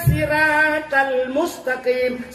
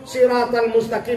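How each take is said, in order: First: The first s is said as plain sin. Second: The first s is said as emphatic ṣad. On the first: It turns into a word meaning crab. The speaker calls it wrong. "Itu yang kita baca dengan sin" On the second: It means the straight path. The speaker calls it right. "dengan sa"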